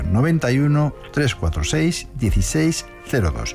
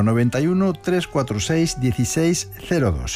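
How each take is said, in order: First: The number is read more slowly. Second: The number is read at normal speed.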